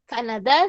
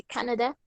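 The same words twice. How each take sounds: First: Said in the usual way. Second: "Canadá" said the English way, CAN-a-da; English pronunciation. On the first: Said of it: "en inglés". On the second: Shown as a demonstration. Teacher giving students the English country name, "Canadá" in English pronunciation. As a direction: stress the first syllable of "Canadá", as in English. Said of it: "se dice Canadá".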